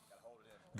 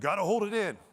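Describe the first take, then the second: First: Breathless whisper of the rule. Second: Said in the usual way. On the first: Shown as a demonstration. Men's rule whispered to the audience, breathy whisper. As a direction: whisper it like a secret.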